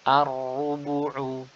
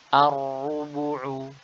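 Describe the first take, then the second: No difference in how they are said.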